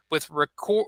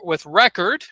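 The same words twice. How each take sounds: First: Record as ri-CORD, stress on the second syllable; verb stress. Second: Record as REK-erd, stress on the first syllable; noun stress. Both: Shown as a demonstration. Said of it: "If it's a noun".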